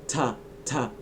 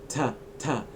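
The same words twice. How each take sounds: Both takes have the same delivery.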